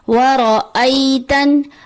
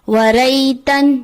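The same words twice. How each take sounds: First: The glottal stop and its vowel are clear. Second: The glottal stop and its vowel are missing. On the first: The speaker calls it right. "हमजा पे जबर है जिसकी अदायगी करनी होती है" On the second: The speaker calls it wrong. "जो कि दुरुस्त अदायगी नहीं"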